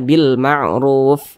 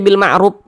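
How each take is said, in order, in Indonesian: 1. Huruf f di akhir ada nafas yang mengalir terdengar. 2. Huruf f di akhir tidak ada nafas yang mengalir. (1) "Tapi dibaca bil ma'ruf" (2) "jangan dibaca bil ma'ruf, enggak ada aliran nafasnya"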